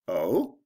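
The 'oh' sounds surprised. The speaker did not know the news. "I didn't realize that"

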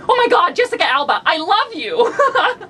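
It is said with a giggle.

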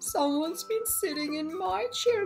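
It is said in a medium bear voice.

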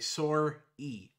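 It is said with a Canadian accent. "Canadians say sorry. They say sore-y"

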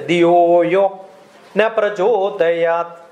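The pause falls before the word na. The prayer asks not to be enlightened. The speaker calls it wrong. "Many people will say, ... Meaning is wrong"

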